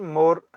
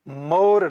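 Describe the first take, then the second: First: The word is said plainly, without extra force. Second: The first sound is said with extra force. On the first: It means the back of the body. "मौ पर जोर देकर न पढ़ने से इसका अर्थ पीठ होता" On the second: It means a seal or stamp. "पर जोर देकर पढ़ने से इसका अर्थ मुहर हो जाता"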